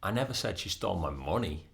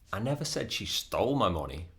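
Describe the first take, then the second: First: The word 'money' carries the main stress. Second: The word 'stole' carries the main stress. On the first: She stole something other than the money. "That might mean that she stole something different, not the money" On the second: She got the money some other way. "That might mean um, she took it with permission"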